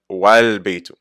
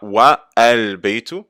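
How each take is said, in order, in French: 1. Le 'a' de 'al' est omis et relié au mot précédent. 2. Le 'a' de 'al' se prononce séparément. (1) "on ne prononce pas le Hamd al-Wasl et on fait juste dire Wal Beitu" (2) "On ne dit pas Wa Al Beitu"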